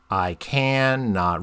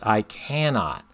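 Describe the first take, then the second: First: The word 'I' is left unstressed. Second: The word 'I' carries strong stress. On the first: The line follows the regular meter. "you could read it" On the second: The speaker stresses the self. "I read that I is emphasized"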